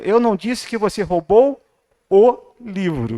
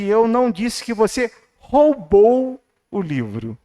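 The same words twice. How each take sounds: First: The word livro is stressed. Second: The word roubou is stressed.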